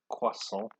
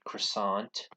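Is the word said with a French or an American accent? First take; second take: French; American. First: It is said with a French pronunciation. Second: It is said with an American pronunciation. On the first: The speaker calls it right. "in French it sounds like wa" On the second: The speaker calls it wrong. "not as Americans would say croissant"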